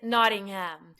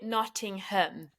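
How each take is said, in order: First: It is said with an American pronunciation. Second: It is said with a British pronunciation. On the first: "the American version is Nottingham" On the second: "you actually pronounce it Nottingham"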